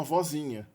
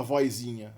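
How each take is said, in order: First: Said in the usual way. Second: "vozinha" said as "voizinha"; inserted i glide. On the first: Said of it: "a sílaba tônica se desloca pro diminutivo". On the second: Shown as a demonstration. Teacher showing an allowed variant, i glide in "vozinha". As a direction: add an i before the z in "vozinha". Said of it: "Mas a gente pode falar".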